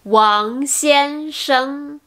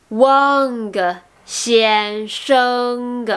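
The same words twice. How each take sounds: First: "Wang Xiansheng" with no hard G at the ends; correct silent G. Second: "Wang Xiansheng" with a hard G released after each ng; wrong sounded G. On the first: Teacher asking learners what they said, correct silent G in "Wang Xiansheng". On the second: Teacher imitating French learners' mistake, sounded G in "Wang Xiansheng". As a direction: add an audible "guh" to "Wang" and "Xiansheng". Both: Shown as a demonstration. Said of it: "le G ne se prononce pas".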